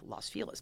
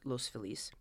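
First: The name is said with Anglicized local pronunciation. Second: The name is said with Spanish pronunciation. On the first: This is how locals who grew up there say it. The speaker calls it right. "it's not authentically Spanish, it's authentically L.A" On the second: This follows the name's Spanish origin. The speaker calls it wrong. "insists on pronouncing it Los Feliz because she speaks Spanish"

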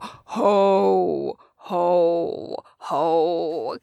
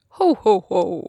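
First: It is a sinister, villain-like laugh. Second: It is a jolly Santa Claus laugh.

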